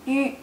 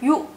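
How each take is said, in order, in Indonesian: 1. Vokalnya bunyi ü. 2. Vokalnya bunyi u biasa. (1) "tapi yu" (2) "bukannya yu"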